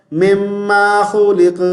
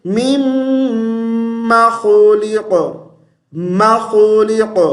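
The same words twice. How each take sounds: First: مما خلق as "memmaa kholeq", stretching the second syllable; wrong lengthening. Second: مما with a long nasal m and short a; correct joined recitation. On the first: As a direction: say مما with an e and a long aa, unchanted. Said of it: "دوسرے میم کو لمبا کر دیتے ہیں". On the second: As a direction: chant مما خلق slowly, finishing on a heavy q. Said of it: "تو ملا کر کیسے پڑھیں گے". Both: Shown as a demonstration.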